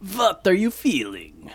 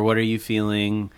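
First: It is said in a put-on vampire voice. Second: It is said in his normal voice.

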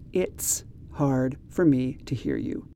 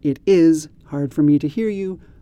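First: The words it is are contracted to it's. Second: The words it is are said in full.

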